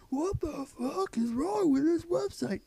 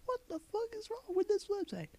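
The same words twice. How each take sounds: First: High, loud, slow mocking cry; mock shrieking commenter. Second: High, shrill-pitched mock outrage; mock outraged commenter. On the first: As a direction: screech it like a pterodactyl. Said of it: "unending cries of". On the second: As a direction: parody an angry commenter. Mocking commenter voice.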